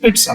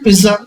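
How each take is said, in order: First: The middle consonant is a sharp 'ts' sound. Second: The middle consonant is a 'z' sound. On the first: "इसका right pronunciation पिट्सा होता है" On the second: "लेकिन पिज्जा चलता है"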